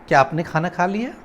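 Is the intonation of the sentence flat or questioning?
questioning. The pitch moves like a real question. The speaker calls it right.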